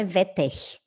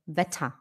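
First: "Wetter" said as "vetekh"; wrong pronunciation. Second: "Wetter" said low as "veta"; correct pronunciation. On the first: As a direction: end "Wetter" on a harsh guttural r. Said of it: "Não é Wetter". (pronúncia errada, r final raspado) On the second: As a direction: end "Wetter" on a soft a, no audible r. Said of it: "é Wetter". (pronúncia correta: "veta") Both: Shown as a demonstration.

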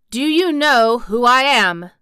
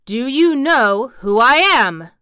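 First: Loud, raised, lordly question; haughty and forceful; imperious demand. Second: Loud, slow, raised and haughty; drawn-out lordly challenge; more imperious demand. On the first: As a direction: demand it like a young Rajah. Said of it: "demanded the Rajah". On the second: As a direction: demand it slowly, insisting on an answer. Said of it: "demanded Colin still more imperiously". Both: A narrator's reading.

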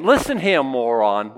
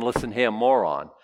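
First: Mock insult. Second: Said in the usual way. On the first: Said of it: "They're, they're saying". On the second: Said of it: "without saying".

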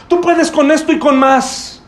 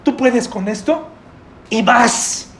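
First: Pushy encouragement. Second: Said in the usual way. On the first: Retold or imitated. Comforter to crying brother, slow emphatic pep talk. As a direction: press it on him, slow and emphatic. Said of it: "Está en pleno llanto". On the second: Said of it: "te dice".

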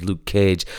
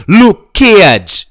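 First: Said in the usual way. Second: "Luke Cage" in a high, loud Jamaican accent, long drawn Luke. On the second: Shown as a demonstration. Showing how Jamaicans say the name, Jamaican accent. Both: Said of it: "I should say it like the Jamaicans".

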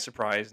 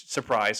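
First: Said in the usual way. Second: Sarcastic. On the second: Acted. Sarcastic aside about police misconduct.

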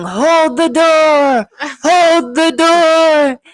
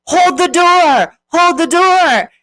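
First: High, slow, drawn-out mock yell. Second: High, slow mock shout; mock yell. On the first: Retelling a TV scene, imitating a man yelling, high and slow. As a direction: cry it out high and slow, half acting it. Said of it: "he's yelling". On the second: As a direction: yell it high and drawn out, as a retelling. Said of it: "they're yelling".

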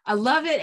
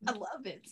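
First: Bursts out loud with delight. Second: Soft. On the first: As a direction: exclaim it loudly, delighted. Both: Real, not acted.

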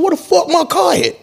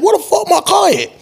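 First: Much higher, alarmed outburst; shocked question. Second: Even higher, strained panic; frantic question. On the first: Panicked owner staring at an empty parking spot, much higher. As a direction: ask it high, stunned the car is gone. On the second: Frantic owner stands up over his missing car, very high. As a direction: jump up and ask it at the top of the voice. Stood up, going crazy. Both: Retold or imitated.

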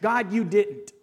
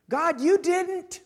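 First: Firm, complaining prayer to God. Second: High, slow, aggrieved complaint to God; aggrieved prayer. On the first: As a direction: say it as a flat grievance. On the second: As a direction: stretch it out, hurt and accusing. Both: Pretend. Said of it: "Maybe this first prayer".

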